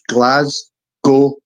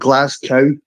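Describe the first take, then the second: First: The name does not end like 'cow'. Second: The name ends with a sound like 'cow'. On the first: The speaker calls it right. "it's pronounced Glasgow" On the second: The speaker calls it wrong. "not Glasgow. For all you Americans out there, it's not some fucking like see-through farm animal"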